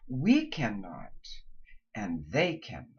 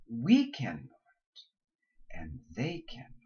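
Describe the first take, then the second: First: We cannot said slowly, and they cannot dropped low; slow thought groups. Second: Second group dropped low; repeated thought groups. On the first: Coach models a sentence with a pause. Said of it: "thought groups". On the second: Coach repeats the sentence for students. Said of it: "say them twice". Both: Shown as a demonstration.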